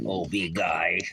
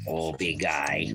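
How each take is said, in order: First: Said in the usual way. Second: Low, slow tender coo. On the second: Real, not acted.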